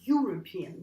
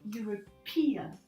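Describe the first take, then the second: First: The stress is on the first syllable. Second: The stress is on a later syllable. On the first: The speaker calls it wrong. "the stress is not on the first syllable anymore. So you don't say European" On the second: The speaker calls it right. "So you say European. The stress moves"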